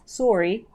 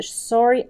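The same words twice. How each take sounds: First: Sorry said the Canadian way, with a rounded o; Canadian-accented apology. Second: Said in the usual way. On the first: Shown as a demonstration. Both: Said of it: "for any of you Canadian friends".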